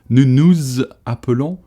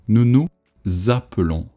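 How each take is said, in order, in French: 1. Le son z reste à la fin de nous. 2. Le son z commence le mot appelons. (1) "Don't do the liaison in between the words either" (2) "The liaison kicks the word that starts with the vowel"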